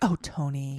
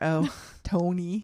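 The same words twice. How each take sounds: First: It is said in a chastising, motherly voice. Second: It is said in a Minnesotan-sounding voice.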